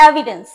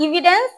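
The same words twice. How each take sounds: First: "evidence" said as "eh-vidence"; correct pronunciation. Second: "evidence" said as "ee-vidence"; wrong pronunciation. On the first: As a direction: model "evidence" slowly with an open e start. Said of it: "it's evidence". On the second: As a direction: demonstrate the mistake, long ee starting "evidence". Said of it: "not evidence". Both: Shown as a demonstration.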